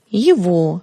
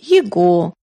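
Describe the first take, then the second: First: The middle consonant is a v sound. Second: The middle consonant is a hard g sound. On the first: The speaker calls it right. "Надо произносить" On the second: The speaker calls it wrong. "Не следует произносить"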